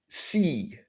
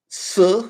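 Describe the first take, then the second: First: "si." said softer with a different tone; Chinese tone contrast. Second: "si" said high and loud; Chinese tone contrast. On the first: Teacher contrasting two Chinese syllables, softer "si.". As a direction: drop the level and change the tone on "si.". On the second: Teacher contrasting two Chinese syllables, "si" high and loud. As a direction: pitch "si" up high and hit it firmly. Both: Shown as a demonstration. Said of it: "It's not the same sound in Chinese".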